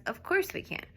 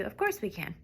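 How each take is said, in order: First: "Of course we can." with a high rising pitch; high exclaim. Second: "Of course we can." with a level falling tune; plain falling. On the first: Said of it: "Don't even do "we can". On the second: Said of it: "Just do". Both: Shown as a demonstration.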